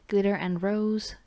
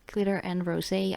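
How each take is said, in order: First: The last word ends without a sounded final vowel. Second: The last word ends with a sounded final vowel. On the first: The speaker calls it wrong. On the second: The speaker calls it right.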